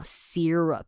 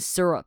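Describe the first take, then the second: First: The first syllable sounds like a long 'seer'. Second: The first syllable has a short, unstretched vowel.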